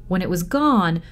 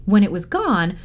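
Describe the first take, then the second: No difference in how they are said.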